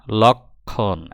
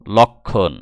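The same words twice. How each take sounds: First: লক্ষণ stretched out, lok... khon; very slow sounding-out of লক্ষণ; slow pronunciation demo. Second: লক্ষণ said firmly as lok-khon; compact, emphatic model of লক্ষণ; pronunciation demo. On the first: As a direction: pull লক্ষণ into two long syllables. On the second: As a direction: say লক্ষণ louder, at a natural length. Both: Shown as a demonstration. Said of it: "উচ্চারণে, বানানে নেই কিন্তু".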